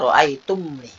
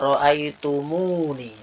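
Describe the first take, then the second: First: The 'm' runs straight into 'ni' without a vowel. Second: An added 'u' vowel separates 'm' and 'ni'. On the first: This is the original form. "Asalnya ro'aitumni" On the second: This is the smoother, more complete form. "Itu ada wawu isba"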